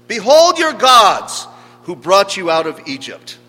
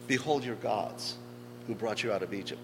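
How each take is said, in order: First: Loud, high-pitched herald's cry; grand proclamation. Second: Soft, subdued echo of a proclamation; hushed requoting. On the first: Acted. Preacher voicing the idol cult's proclamation to the people, loud proclamation. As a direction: proclaim it boldly to a crowd. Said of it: "that was the fundamental proclamation that was offered". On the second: Retold or imitated. Preacher lamenting the affront to the Lord's name, hushed requoting. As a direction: repeat it quietly, letting it sink.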